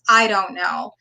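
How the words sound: It is said in a flat, negative, defeated tone. The speaker feels stuck and hopeless about what comes next. The speaker calls it wrong. "there's a negative connotation ... Just listen to how that sounds"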